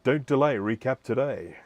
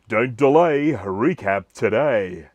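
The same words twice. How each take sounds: First: It is said in the speaker's ordinary voice. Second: It is said in a put-on radio-announcer voice.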